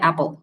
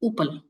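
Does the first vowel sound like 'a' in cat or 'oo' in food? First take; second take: a; oo. First: The first vowel is like 'a' in cat. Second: The first vowel is like 'oo' in food. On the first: The speaker calls it right. "अब एक word है एप्पल" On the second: The speaker calls it wrong. "अब कोई आपके सामने ऊपल कहे"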